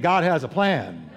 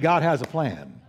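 First: It is said forcefully, with strong conviction. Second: It is said plainly, without extra force.

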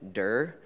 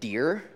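First: The vowel rhymes with fur. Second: The vowel rhymes with deer. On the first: The speaker calls it right. "It sounds exactly the way it's spelled" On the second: The speaker calls it wrong. "people tried to be polite to me and pronounce it Deer"

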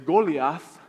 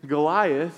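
First: It is said with a Dominican Spanish accent. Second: It is said with a plain English accent.

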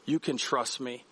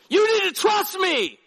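First: It is said softly, like an invitation. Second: It is shouted harshly, like a command.

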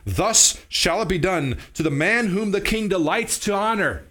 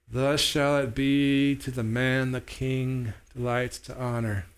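First: It is read in a normal, neutral tone. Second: It is said reluctantly, without enthusiasm.

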